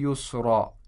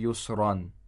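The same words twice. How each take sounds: First: The word ends in a long a vowel. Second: The word ends with an an sound. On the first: The speaker calls it right. "So it's" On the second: The speaker calls it wrong. "It's not"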